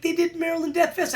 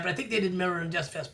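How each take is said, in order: First: First telling, pitched higher; confident claim. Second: Quieter, quicker hedged repeat; unsure hedge. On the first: To the viewers, the first confident claim, said higher. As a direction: announce it like you're sure. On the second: After admitting he could be wrong, a quick soft hedge. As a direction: back off it, softer and fast. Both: Real, not acted.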